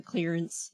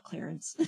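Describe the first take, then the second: First: "clearance" said with a clear "clear" vowel, KLEER-ence; "clearance", not the name Clarence. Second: "Clarence" said as the name, KLAIR-ence, softly; a soft, throwaway "Clarence". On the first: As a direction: say "clearance" carefully, like the word for a sale section. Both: Shown as a demonstration. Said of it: "not Clarence".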